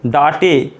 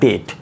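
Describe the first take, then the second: First: It has an 'ah' vowel and an extra final syllable. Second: It has an 'ay' vowel and a single syllable. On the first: The speaker calls it wrong. "ऐसे नहीं" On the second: The speaker calls it right. "तो ये हो जाएगा डेट"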